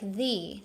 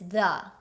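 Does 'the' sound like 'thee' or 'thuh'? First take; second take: thee; thuh. First: It is said in the form used before vowels. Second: It is said in the form used before consonants. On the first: It is the form used before a vowel. "T H E in front of a vowel, it sounds like the" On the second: It is the form used before a consonant. "T H E in front of a consonant is the"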